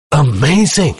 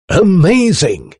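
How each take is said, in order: First: High gasp of amazement, briefer. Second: High, drawn-out cry of amazement; shouted. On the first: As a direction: exclaim it high, astonished and winded. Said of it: "gasped the Professor". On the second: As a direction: exclaim it high and slowly, like an excited inventor. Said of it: "he shouted". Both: A narrator's reading.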